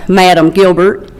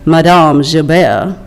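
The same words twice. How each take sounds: First: The name is said with a Southern US pronunciation. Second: The name is said with a French pronunciation.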